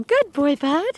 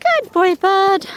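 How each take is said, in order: First: Lightly raised praise to a dog; a little sing-song for the dog; lightly pitched good boy. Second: High, slow, loud praise to a dog; squeaky good boy for the dog. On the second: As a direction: coo it up high at the pup. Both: Shown as a demonstration. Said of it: "that's why I talk funny to the dogs".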